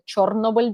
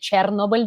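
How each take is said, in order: First: The name is pronounced the Ukrainian way. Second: The name is pronounced the Russian way. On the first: The speaker calls it right. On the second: The speaker calls it wrong.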